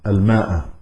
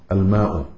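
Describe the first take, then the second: First: الماء ending in a short "a"; الماء closed on an "-a" vowel; accusative ending. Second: الماء ending in a short "u"; الماء closed on an "-u" vowel; nominative ending. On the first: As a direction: say الماء with a final fatha, al-maa'a. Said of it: "مفعول به منصوب". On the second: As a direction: say الماء with a final damma, al-maa'u. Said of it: "مرفوع". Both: Shown as a demonstration.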